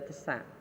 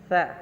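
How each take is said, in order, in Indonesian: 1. Diucapkan sebagai dua suku kata, te-sa. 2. Diucapkan sebagai satu suku kata. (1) "Tidak bisa kita baca tesa, itu salah" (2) "Tapi bacanya adalah sa"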